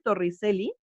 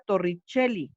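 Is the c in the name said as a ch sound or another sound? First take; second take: another sound; ch sound. First: The c is not said as ch. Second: The c is said as ch. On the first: "se escribe Torricelli" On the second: "se pronuncia Torricelli, como si esta fuera una che"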